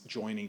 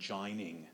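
First: The first vowel sounds like 'oy'. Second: The first vowel sounds like 'eye'. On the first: This is the modern pronunciation. "you don't talk about two things joining together" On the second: This is the older pronunciation that rhymed with line. "They pronounced it in what we would now call a Cockney way"

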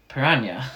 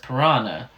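First: Piranha is said with a Spanish-like pronunciation. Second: Piranha is said the common English way. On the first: This follows the word's Spanish origin. "she decides that she's going to say piranha" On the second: This is how most people in the film say it. "every other sort of scientist in the film just says piranha"

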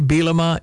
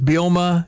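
First: The second E in the name is pronounced. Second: The second E in the name is silent. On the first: The speaker calls it wrong. "People say Bielema" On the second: The speaker calls it right. "And it is Bielema, just saying"

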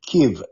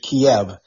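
First: The name is said the Ukrainian way. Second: The name is said the English way. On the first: "They pronounce it" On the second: "we pronounce it in English"

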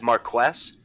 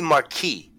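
First: The name is said with an anglicized pronunciation. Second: The name is said with a French pronunciation. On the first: The speaker calls it wrong. "they all mispronounce it as Marquess" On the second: The speaker calls it right. "because it's a French Marquis name"

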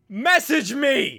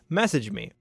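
First: It is said loudly, almost shouted. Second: It is said at normal, quiet volume.

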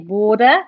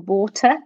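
First: It is said with an American accent. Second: It is said with a British accent. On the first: Listeners understand the word. "then that's recognised" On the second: Listeners do not understand the word. "generally not recognised"

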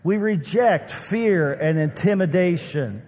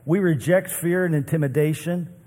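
First: It is read with strong feeling and passion. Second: It is read calmly, without extra feeling.

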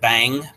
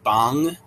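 First: The vowel is like the one in 'cat'. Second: The vowel is like the one in 'long'. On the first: The speaker calls it wrong. "not bang" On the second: The speaker calls it right. "but bong"

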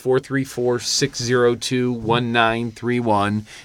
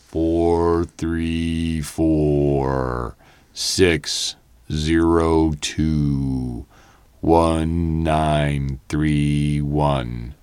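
First: The number is said at normal speed. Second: The number is said slowly.

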